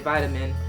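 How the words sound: It is said in an imitated American accent. "they say vitamin"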